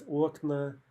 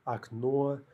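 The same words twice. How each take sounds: First: Окна with stress on the first о; drawn-out, stressed opening vowel in окна; stress on first syllable. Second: Окно with stress on the final о; stress on second syllable. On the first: Teacher showing the plural, окна stressed on the first syllable. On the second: Teacher showing the singular, окно stressed on the ending. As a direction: hit the last syllable of окно. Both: Shown as a demonstration. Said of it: "the stress almost always jumps".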